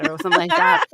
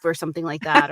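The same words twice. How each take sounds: First: Very high, louder put-on voice; character catchphrase voice. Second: Said in the usual way. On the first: Shown as a demonstration. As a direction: pitch it way up, a cartoonish character. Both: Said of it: "that I could remember in the voice".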